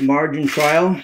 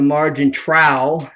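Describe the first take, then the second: First: The last word sounds like 'trial'. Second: The last word sounds like 'trowel'. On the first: "Nobody's on trial" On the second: "It's a margin trowel"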